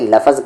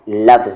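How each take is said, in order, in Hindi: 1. f और z के बीच एक स्वर डाला जाता है। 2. f और z बिना किसी स्वर के जुड़ते हैं। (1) "अक्सर लोग इसे लफ़ज़ कहते हैं जो कि गलत होता है" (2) "इस वर्ड का सही तलफ़ुज़ है लफ्ज़"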